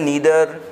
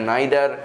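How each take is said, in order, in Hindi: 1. यह अमेरिकन लहजे में बोला गया है। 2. यह ब्रिटिश लहजे में बोला गया है। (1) "नीदर अमेरिकन प्रोनाउंसिएशन है" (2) "ब्रिटिश प्रोनाउंसिएशन है नाइदर"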